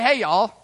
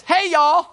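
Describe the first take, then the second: First: Said in the usual way. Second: Higher, louder folksy southern hey y'all; southern greeting. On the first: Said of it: "he didn't say". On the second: Pretend. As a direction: toss out a playful southern hello. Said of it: "How about this?".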